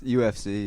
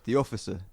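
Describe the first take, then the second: First: It is said as three separate letters. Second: It is said as one word, like officer. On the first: "It's just U F C" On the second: "you're pronouncing it as it's written"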